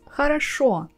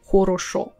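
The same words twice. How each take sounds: First: The unstressed vowels sound like 'a'. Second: The unstressed vowels sound like full 'o'. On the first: The speaker calls it right. "we pronounce as хорошо" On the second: The speaker calls it wrong. "and not хорошо"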